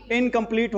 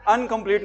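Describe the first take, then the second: First: इनकम्प्लीट said with a clear "in" at the start; teacher giving the right form; correct pronunciation. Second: अनकम्प्लीट said with an "an" at the start; teacher showing the wrong form; wrong pronunciation. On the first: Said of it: "इनकम्प्लीट होगा". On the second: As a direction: start अनकम्प्लीट with "an", the way the mistake sounds. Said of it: "अनकम्प्लीट नहीं होगा". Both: Shown as a demonstration.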